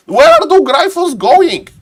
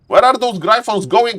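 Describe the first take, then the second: First: High, loud caster's cry; excited alarm. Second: Raised pitch at ordinary volume; milder excitement. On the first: Caster watching the Gryphons fly off, excited alarm. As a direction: call it out in startled excitement. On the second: Caster asking after the Gryphons once more, milder excitement. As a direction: repeat it high but more controlled. Same question repeated, less intense. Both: Real, not acted.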